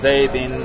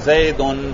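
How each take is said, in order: First: The ending is said with i before n. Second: The ending is said with u before n. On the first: It is in the genitive case. "کسرہ پڑھیں گے" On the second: It is in the nominative case. "اس پر پیش پڑھیں گے"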